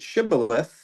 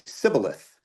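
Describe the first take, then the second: First: The word begins with an sh sound. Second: The word begins with a plain s sound. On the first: The speaker belongs to our tribe. "if they pronounced it Shibboleth" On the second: The speaker belongs to the other tribe. "pronounce that same word without the H"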